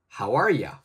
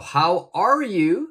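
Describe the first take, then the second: First: The last words are reduced to 'ya'. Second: The last word is said fully as 'you'.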